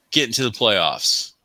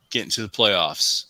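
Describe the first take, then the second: No difference in how they are said.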